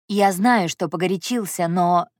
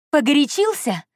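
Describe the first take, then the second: First: Mildly contrite admission; guilty. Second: High, incredulous angry echo; furious. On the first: Andrey apologises to heroine, mildly guilty. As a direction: admit fault, understated and tentative. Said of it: "теперь виноватым выглядел он". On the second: Heroine rejects Andrey's excuse, furious. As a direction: throw his word back, pitch leaping up. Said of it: "я не на шутку рассвирепела". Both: A narrator's reading.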